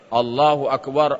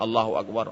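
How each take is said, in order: First: The phrase is said loudly, at high volume. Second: The phrase is said softly, at low volume. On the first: It could be heard from outside. "Pasti suara mengucapkannya Allahu Akbar, Allahu Akbar, barulah didengar" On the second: It could not be heard from outside. "Kalau hanya Allahu Akbar, Allahu Akbar, tak mungkin dengar"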